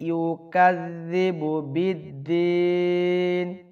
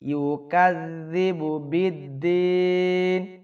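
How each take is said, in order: The two takes are said the same way.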